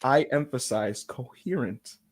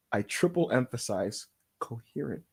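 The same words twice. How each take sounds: First: "coherent" set out slowly and deliberately; low, slow, underlined "coherent"; stress on coherent. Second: "coherent" drawn apart after a weighty delay; low, soft, very deliberate "coherent"; extra stress on coherent. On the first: Spokesman appealing to the wrestler, deliberate weight on "coherent". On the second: Spokesman driving the demand home, heavy measured weight on "coherent". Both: Pretend.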